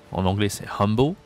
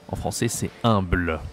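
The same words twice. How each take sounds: First: "humble" said the English way, "am-bo" with a clear h-less vowel; English pronunciation. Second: "humble" said the French way, nasal "ɛ̃bl"; French pronunciation. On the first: Teacher contrasting English "humble" with French. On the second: Teacher showing the French form after the English one. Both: Shown as a demonstration.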